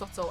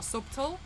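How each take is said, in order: First: The b sound is silent in the word. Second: The b sound is pronounced in the word. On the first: The speaker calls it right. "subtle was pronounced subtle" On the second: The speaker calls it wrong. "and not subtle"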